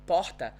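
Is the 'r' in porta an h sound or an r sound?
h sound. The r in porta sounds like an h. This is how locals here say it. "when you talk to someone from here, let's say, and they say porta"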